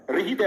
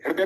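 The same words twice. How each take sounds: First: "हृदय" said as "रहिदय", full र before ह; र sound first. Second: Said in the usual way. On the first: Shown as a demonstration. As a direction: start "हृदय" on र, then a light ह. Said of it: "ये पहले बोला जाता है". ("हृदय" को "रहिदय" की तरह, पहले पूरा र) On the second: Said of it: "हृदय नहीं होता".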